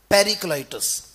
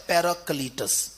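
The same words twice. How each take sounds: First: پیریکلائٹس with "klai" in the middle; first pronunciation. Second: پیراکلیٹس with "klee" in the middle; second pronunciation. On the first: Preacher contrasting two Greek readings, پیریکلائٹس said with a "klai" syllable. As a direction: sound out پیریکلائٹس as "peri-klai-tos". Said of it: "یہ پہلا تلفظ ہے". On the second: Preacher contrasting two Greek readings, پیراکلیٹس said with a "klee" syllable. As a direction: sound out پیراکلیٹس as "para-klee-tus". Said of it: "اور دوسرا ہے". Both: Shown as a demonstration.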